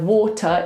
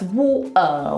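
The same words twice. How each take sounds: First: The T in the middle is clearly pronounced. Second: The T is replaced by a throat stop. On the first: "instead of water" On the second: "it's water"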